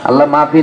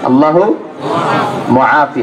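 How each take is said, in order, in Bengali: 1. দ্বিতীয় শব্দটি সংক্ষেপ করে 'mafi' বলা হয়। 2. দ্বিতীয় শব্দটি পুরোপুরি 'muafi' বলা হয়। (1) "আল্লাহ মাফি না" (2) "শুদ্ধ উচ্চারণ হচ্ছে আল্লাহ শাফি আল্লাহ মুআফি"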